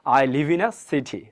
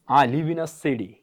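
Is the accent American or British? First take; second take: British; American. First: British accent, the t in city is a clear t. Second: American accent, the t in city sounds like d.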